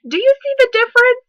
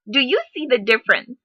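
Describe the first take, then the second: First: Higher, louder challenging question; emphatic question. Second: Said in the usual way. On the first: Real, not acted. To her viewers, driving the point home loudly.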